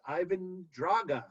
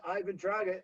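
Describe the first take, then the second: First: Draga with final open a sound; Russian pronunciation. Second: Said in the usual way. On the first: Shown as a demonstration. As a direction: say Draga ending on ah, not oh. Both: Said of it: "it's pronounced Ivan Draga".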